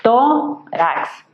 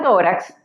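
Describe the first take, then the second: First: "Tórax" in two beats, tó, rax, with a gap; syllable by syllable. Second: Said in the usual way. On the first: Shown as a demonstration. Teacher dividing a word for students, "Tórax" syllable by syllable. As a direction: pull "Tórax" apart into tó... rax. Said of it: "obtenemos dos sílabas". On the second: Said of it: "si la separamos en sílabas".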